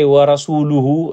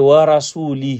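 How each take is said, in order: First: The vowel after the l is u. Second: The vowel after the l is i. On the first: The meaning of the verse stays correct. The speaker calls it right. "it's good" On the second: God is declared free of the Messenger. The speaker calls it wrong. "then it's a musibah / If you put kasra on the lam"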